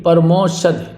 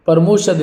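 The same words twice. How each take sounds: First: परमोषध with open au, "par-mau-shad"; correct au vowel. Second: परमोषध with plain o, "par-mo-shad"; mistaken o vowel. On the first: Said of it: "ये सही होगा". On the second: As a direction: round the middle vowel of परमोषध to o. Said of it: "परमोषध नहीं". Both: Shown as a demonstration.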